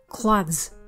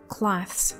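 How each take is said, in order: First: The final th and s are voiced. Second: The final th and s are voiceless. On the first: "你可以把th 还有s 都念成震动的版本" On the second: "把s 的s 加上去变成cloths"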